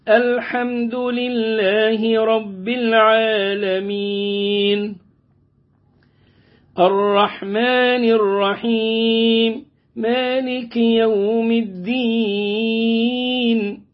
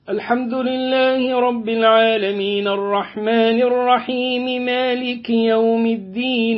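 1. تُقرأ بإيقاع هادئ ومتأنٍّ، دون استعجال. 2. تُقرأ بسرعة، دون تمهّل يُذكر. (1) "يبقى كده برتل" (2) "والحذر السرعة"

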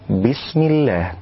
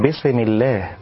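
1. تُحبس السين ساكنة بلا ارتداد. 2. تُنطق السين مع ارتداد خفيف صغير. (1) "وإنما يقول" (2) "لا أن يقول"

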